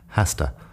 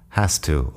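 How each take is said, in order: First: The final vowel of 'to' is shortened. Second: The final vowel of 'to' is full. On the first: "o bien acortado un poco más la vocal al final" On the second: "sería has to"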